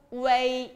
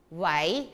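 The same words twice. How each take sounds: First: 웨이 drawn out on a level pitch. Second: 웨이 starting low and rising; second tone. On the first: Teacher reads out the pinyin syllable, 웨이 held level. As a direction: hold 웨이 even, without a rise. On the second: Teacher models second tone for students, 웨이 rising. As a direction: lift 웨이 upward from a low start. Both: Shown as a demonstration. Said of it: "이성으로 해보세요".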